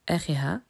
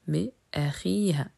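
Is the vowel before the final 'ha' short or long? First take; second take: short; long. First: The vowel before the ending is short. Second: The vowel before the ending is long. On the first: The speaker calls it wrong. "On ne dit pas" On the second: The speaker calls it right. "mais ... On ajoute des prolongations"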